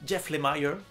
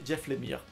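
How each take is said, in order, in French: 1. Le nom se prononce avec des sons anglais. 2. Le nom se prononce avec des sons français. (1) "je prononce en anglais" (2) "j'ai appris que ça se disait"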